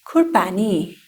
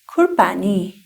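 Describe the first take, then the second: No difference in how they are said.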